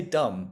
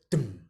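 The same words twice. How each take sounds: First: "dumb" as the whole word; full word dumb. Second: "dum" as a bare syllable. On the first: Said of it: "if we say". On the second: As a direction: clip "dum" to just the syllable. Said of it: "We're left with". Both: Shown as a demonstration.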